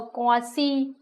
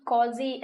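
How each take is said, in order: First: क्वासी pronounced "kwaa-see", not with a Z; S sound in क्वासी. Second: क्वाजी pronounced "kwaa-zee", not with an S; Z sound in क्वाजी. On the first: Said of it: "क्वाजी ऐसे कुछ बोलते हैं". (क्वासी में "स" की आवाज़) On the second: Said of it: "ऐसे कुछ बोलते हैं". (क्वाजी में "ज़" की आवाज़) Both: Shown as a demonstration.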